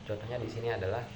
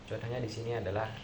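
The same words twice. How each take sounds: The two takes are said the same way.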